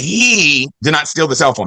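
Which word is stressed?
he. The stress falls on the word he. Someone else stole it. "that means somebody else did"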